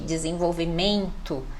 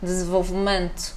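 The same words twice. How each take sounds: First: The final syllable is fully and clearly pronounced. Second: The final syllable is clipped and subtle. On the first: "a gente já gosta de enfatizar" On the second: "já é mais cortadinho"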